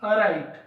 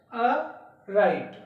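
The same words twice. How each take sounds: First: Said in the usual way. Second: "अ राइट" split, pause after अ; teacher separating अ from राइट; broken into sounds. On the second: Shown as a demonstration. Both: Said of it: "इस शब्द को बोलकर देखना है".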